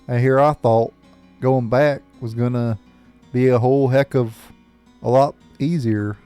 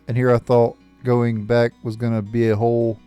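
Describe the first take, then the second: First: It is said in a put-on character accent. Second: It is said in the speaker's plain voice.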